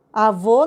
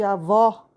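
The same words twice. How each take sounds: First: "Avô" with a closed ô; "Avô" stressed on a closed VÔ; closed final vowel. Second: "avó" with an open ó; "avó" stressed on a wide open VÓ; open final vowel. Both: Shown as a demonstration. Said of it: "Tá vendo a diferença?".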